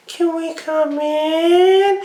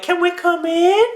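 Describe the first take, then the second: First: Very slow, high, stretched eerie plea; drawn-out creepy child. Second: Put-on high, eerie kid voice; creepy child voice. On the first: Acted. Disguised aliens at the pedophile's door, slow eerie high plea. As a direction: draw the words out like a haunted child. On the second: Disguised aliens at the door, eerie high child voice. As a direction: sound innocent and unsettling. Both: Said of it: "they're like".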